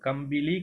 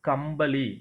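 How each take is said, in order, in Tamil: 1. இந்தச் சொல் 'bili' ஒலியுடன் முடிகிறது. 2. இந்தச் சொல் மூர்த்தன்ய 'baḷi' ஒலியுடன் முடிகிறது. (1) "அது கம்பிலி கிடையாது" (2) "கம்பளி அப்படின்னு சொல்லணும்"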